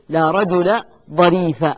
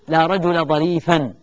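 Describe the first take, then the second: First: The last word ends in a short a. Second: The last word ends in -an. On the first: "الوجه الأول هو البناء، ... والبناء طبعا على الفتح" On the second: "الوجه الثاني الذي يجوز في كلمة ظريف هو النصب. ... النصب يكون بالتنوين"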